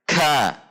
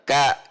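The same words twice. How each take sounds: First: A strong burst of air follows the k. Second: No puff of air follows the k. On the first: "terlalu banyak mendorong udara" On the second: "tidak ada dorongan udara sama sekali"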